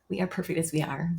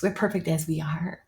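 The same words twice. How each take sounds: First: Quieter, full We are; soft conviction. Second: Said in the usual way. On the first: Real, not acted. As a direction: settle it gently, like a truth.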